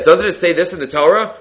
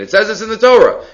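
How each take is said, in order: First: Higher pitch, "Doesn't" rising into a question; questioning tune carried through to "Torah"; read as a question. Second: High, emphatic assertion falling on "Torah"; pitched up, then "Torah" dropped as a firm statement; read as a statement. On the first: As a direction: ask it, lifting "Doesn't it say this". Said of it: "he also reads as a question". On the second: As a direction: declare it, ending with a fall on "Torah". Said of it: "Rashi says it's a statement". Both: Shown as a demonstration.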